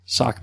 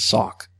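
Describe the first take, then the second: First: Said in the usual way. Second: "sock" said as "sawk"; shifted vowel in "sock". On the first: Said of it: "Or sock. Sock becomes sock". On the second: Shown as a demonstration. Demonstrating a regional vowel shift, "sock" as "sawk". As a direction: round the O in "sock" toward "aw". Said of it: "Sock becomes sock".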